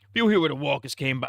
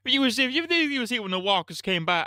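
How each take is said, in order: First: Higher put-on Shane voice, accent reined in; retry the Shane accent, less high-pitched; lightly voiced Shane. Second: High-pitched put-on accent for Shane; switched accent. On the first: Shane confronting Rick over Lori, milder accent. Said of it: "I don't know why he switched his accent". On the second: Shane confronting Rick over Lori, high put-on accent. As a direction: slip into another accent, pitched way up. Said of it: "switched his accent in the middle".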